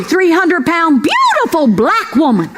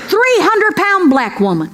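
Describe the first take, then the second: First: "beautiful" slowed and leaned on as the fix; stress on beautiful. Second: Said in the usual way. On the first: Shown as a demonstration. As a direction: correct yourself by landing hard on "beautiful".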